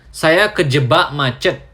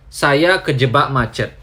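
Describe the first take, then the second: No difference in how they are said.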